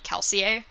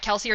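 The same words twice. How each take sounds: First: The name is pronounced the French way. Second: The name is pronounced the anglicized way. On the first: This follows the name's French origin. "based on the fact that it's based on French, it should be Kelsier" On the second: This is the way the author likes. "Kelsier is his preferred way of saying it"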